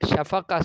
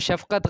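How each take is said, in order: First: The word ends on an open vowel. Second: The word ends with a clear t sound. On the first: The speaker calls it right. "शफ़क़ा सही होगा" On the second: The speaker calls it wrong. "शफ़क़त गलत होगा"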